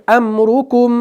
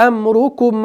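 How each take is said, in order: The two takes are said the same way.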